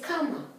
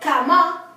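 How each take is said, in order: First: The stress is on the first syllable. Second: The stress is on the last syllable. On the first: The speaker calls it right. "it's cama" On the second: The speaker calls it wrong. "It's not cama"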